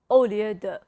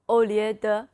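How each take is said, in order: No difference in how they are said.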